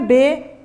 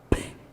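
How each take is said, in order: First: It is said as the full letter name. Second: It is said as a short bare consonant sound. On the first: The speaker calls it wrong. "Não é B" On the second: The speaker calls it right. "é P"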